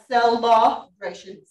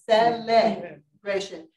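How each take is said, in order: First: The second syllable has an unclear vowel, not 'eh'. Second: The second syllable has a clear 'eh' vowel. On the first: The speaker calls it wrong. "Not celebration" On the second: The speaker calls it right. "What is the vowel that is the second syllable? Eh"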